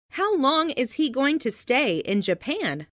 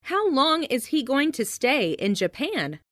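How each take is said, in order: Both takes have the same delivery.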